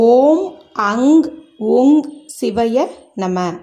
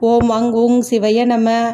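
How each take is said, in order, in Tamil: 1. இடைவெளிகளுடன் மெதுவாகச் சொல்லப்படுகிறது. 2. இடைவெளி இல்லாமல் வேகமாகச் சொல்லப்படுகிறது. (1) "நான் நிறுத்தி நிதானமாக சொன்னேன்" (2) "இப்படி தான் வந்துட்டு சொல்லுவாங்க"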